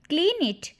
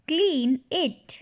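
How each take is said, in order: First: Said in the usual way. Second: "Clean it" slowly, word by word; slow repeat. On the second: Shown as a demonstration. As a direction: stretch "Clean", then a separate "it". Slower repeat for learners. ("Clean it" धीरे, शब्द अलग-अलग)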